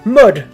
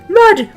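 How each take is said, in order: First: It is said in a normal voice. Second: It is said in a very high-pitched voice.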